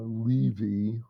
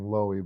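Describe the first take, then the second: First: The middle consonant is a V sound. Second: The middle consonant is a W sound. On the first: The speaker calls it right. "the W should be a V" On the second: The speaker calls it wrong. "I've been saying Lowy"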